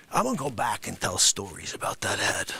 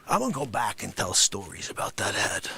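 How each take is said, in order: First: Unvoiced low whisper; whispered threat between the shouts. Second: Said through a laugh, low; laughing retake of the line. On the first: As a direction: whisper it aside. Whispered aside. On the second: Acted. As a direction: crack up while saying it.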